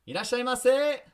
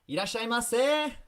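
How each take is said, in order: The two takes are said the same way.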